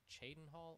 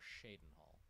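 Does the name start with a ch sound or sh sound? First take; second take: ch; sh. First: The name starts with a ch sound. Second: The name starts with a sh sound. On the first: "Like a ch" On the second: "or a shush"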